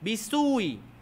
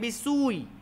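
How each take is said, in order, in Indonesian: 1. Vokal sebelum hamzah itu pendek. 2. Vokal sebelum hamzah itu pendek.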